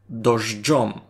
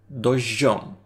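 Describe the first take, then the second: First: The middle has a 'dzh' sound. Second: The middle has a plain 'zh' sound. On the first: "Дождьом із дж" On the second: "У них із звука дж обстався лише простий ж"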